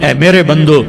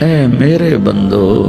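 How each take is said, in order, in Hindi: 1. यह सपाट, सामान्य लहजे में कहा गया है। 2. यह गर्म, प्यार भरे लहजे में कहा गया है।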